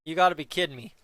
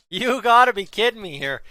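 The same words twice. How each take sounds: First: Said in the usual way. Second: Louder, stressing gotta; louder disbelief. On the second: Real, not acted. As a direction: hit gotta harder in disbelief.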